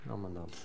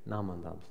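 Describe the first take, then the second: First: The phrase is mumbled in a short, blurred form. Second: The phrase is mumbled in a short, blurred form.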